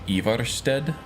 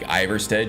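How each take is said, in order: First: The name is said with a Nordic-style pronunciation. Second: The name is said with an English-style pronunciation. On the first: This follows the original language's sounds. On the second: This is the familiar way to say it.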